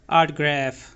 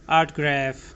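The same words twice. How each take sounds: The two takes are said the same way.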